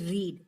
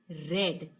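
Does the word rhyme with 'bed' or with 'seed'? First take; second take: seed; bed. First: The vowel is long, rhyming with seed. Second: The vowel is short, rhyming with bed. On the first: It is the present tense. "when we are talking about the present verb, the pronunciation is read" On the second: It is the past tense. "when we use this verb as the past, so we need to pronounce it as read"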